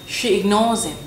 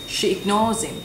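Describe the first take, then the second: The two takes are said the same way.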